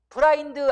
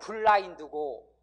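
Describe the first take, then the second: First: It begins with a single flapped r sound. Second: It begins with a doubled l sound. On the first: The speaker calls it wrong. "브라인드 아니고" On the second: The speaker calls it right.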